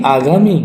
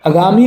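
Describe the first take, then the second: First: आगामी with long first aa; correct pronunciation. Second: आगामी with short first a; wrong pronunciation. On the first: Teacher giving the right word, आगामी starting long. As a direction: say आगामी as "aa-gaami". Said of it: "आगामी बिल्कुल सही हो गया". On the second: Teacher rejecting the error, आगामी starting short. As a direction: say आगामी as "a-gaami". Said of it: "आगामी नहीं". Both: Shown as a demonstration.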